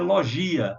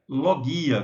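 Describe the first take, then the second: First: The g is said like a soft j. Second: The g is said like a hard g. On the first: The speaker calls it wrong. "muita gente, né, pronuncia logia, mas essa pronúncia não existe em grego" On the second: The speaker calls it right. "A pronúncia correta é logia"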